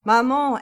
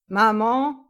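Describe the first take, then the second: First: Loud, higher-pitched call. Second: Loud questioning call, rising at the end. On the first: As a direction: announce yourself loudly to mother in another room. Son calls to mother again. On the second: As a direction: call into the flat to see who is home. Son calls out on arriving home. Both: A narrator's reading.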